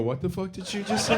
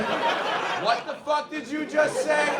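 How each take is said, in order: First: Higher, softer mock outrage; imitating the attendants. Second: Much higher, slow drawn-out mock outrage; imitating the attendants. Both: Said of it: "stopped what they were doing and go".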